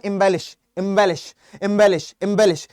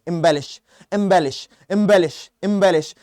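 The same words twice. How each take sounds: First: एम्बेलिश said clearly, em-BEL-ish, over and over; repeated drill word. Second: एम्बेलिश said clearly, em-BEL-ish, again and again; repeated drill word. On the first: Teacher drilling एम्बेलिश so students repeat it. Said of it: "तो आप इसको बोलो". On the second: Teacher drilling एम्बेलिश for students to repeat aloud. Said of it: "बार-बार बोलने में". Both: Shown as a demonstration.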